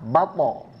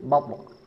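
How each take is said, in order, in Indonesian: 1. Huruf terakhir mendapat vokal tambahan penuh. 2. Huruf terakhir berakhir dengan pantulan pendek. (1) "bukan sengaja dikasih harokat fathah" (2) "karena tarikan lidah sehingga menimbulkan pantulan"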